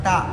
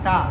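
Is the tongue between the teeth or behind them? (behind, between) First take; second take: between; between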